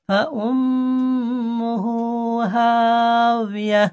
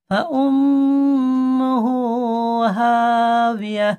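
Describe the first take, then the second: No difference in how they are said.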